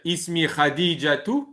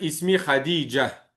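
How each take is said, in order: First: The name ends with an added 'tu' syllable. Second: The name ends on a plain 'a' sound. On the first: The speaker calls it wrong. "On va pas dire" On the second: The speaker calls it right. "on va dire"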